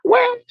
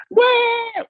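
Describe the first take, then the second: First: Put-on very high, slightly louder baby "Where?" with a rising tune; a dad mimicking his sleeping daughter's high rising "Where?"; imitating half-asleep baby. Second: Put-on very high baby "Where?" with a falling tune; a dad mimicking his daughter's high falling "Where?"; imitating baby waking. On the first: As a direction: pipe up "Where?" way up high like a toddler talking in her sleep. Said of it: "and she'd be like". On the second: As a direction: squeeze "Where?" up high and let it drop, like a toddler waking from a bad dream. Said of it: "She says".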